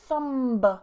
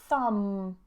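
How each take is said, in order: First: The M is released into a B sound. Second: The word ends on M with no B. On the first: The speaker calls it wrong. "I don't say thumb" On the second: The speaker calls it right. "But I say thumb"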